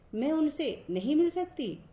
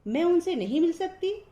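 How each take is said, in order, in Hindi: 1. इसे सामान्य कथन वाले लहजे में बोला जाता है। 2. इसे प्रश्न वाले लहजे में बोला जाता है। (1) "सामान्य शब्द" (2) "प्रश्नवाचक शब्द ऐसे बोला जाएगा"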